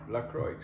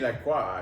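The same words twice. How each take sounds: First: The name is said with a plain English pronunciation. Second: The name is said with a French-sounding pronunciation. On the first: The speaker calls it right. "but it's actually LaCroix" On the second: The speaker calls it wrong. "we used to say LaCroix actually. Because we thought it was um, French and fancy"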